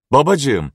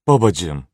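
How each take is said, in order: First: Daughter cries out Babacığım to her father; crying out. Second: Sighing. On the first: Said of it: "diye bağırdı Gerant". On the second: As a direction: breathe out babacığım in a weary sigh. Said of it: "diye iç çekti". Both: A narrator's reading.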